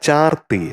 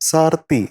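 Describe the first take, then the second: First: The word begins with a ch sound. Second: The word begins with an s sound. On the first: The speaker calls it right. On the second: The speaker calls it wrong.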